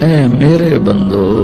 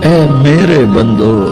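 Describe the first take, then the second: The two takes are said the same way.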